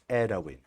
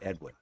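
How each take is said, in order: First: The name is said with Japanese sounds. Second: The name is said with English sounds. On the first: The speaker calls it right. "it's Edwin" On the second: The speaker calls it wrong. "you're wrong if you pr- pronounce it the correct way. Like Edwin is not Edwin"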